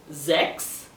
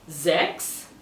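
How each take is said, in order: Both takes have the same delivery.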